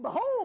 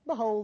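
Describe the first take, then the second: First: It is said explosively, like a thunderbolt. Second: It is said flatly, like plain reading.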